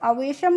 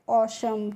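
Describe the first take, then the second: First: The w is sounded as a v. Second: The w is silent, opening on 'aw'. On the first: The speaker calls it wrong. "अवेशम नहीं पढ़ते हैं" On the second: The speaker calls it right. "क्या पढ़ते हैं ऑशम"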